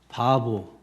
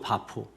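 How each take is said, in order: First: The second syllable starts with a b sound. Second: The second syllable starts with a p sound. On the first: This is the Korean-style form of the name. "우리 한글식으로 발음하다 보니까 바보" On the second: This is the original form of the name. "원래는 바포죠"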